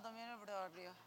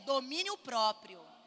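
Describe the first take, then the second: First: It is said weakly and timidly. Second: It is said fully and strongly.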